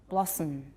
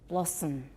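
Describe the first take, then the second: The two takes are said the same way.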